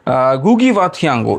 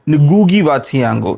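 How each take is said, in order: First: The name begins with a plain G sound. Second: The name begins with a nasal NG sound. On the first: The speaker calls it wrong. "इसका उच्चारण बहुत जन ठीक से नहीं कर पाते हैं" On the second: The speaker calls it right. "इसका एक्चुअल उच्चारण है"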